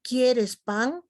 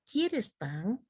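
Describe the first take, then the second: First: QUIERES PAN pitched up and firm, rising at the end; "quieres pan" as a fuller-voiced, clearly intoned question. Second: "quieres pan" in an understated, softer tune; contrasting intonation. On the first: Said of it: "No es lo mismo". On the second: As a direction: say "quieres pan" quietly, with less lift. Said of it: "la entonación es importante". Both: Shown as a demonstration.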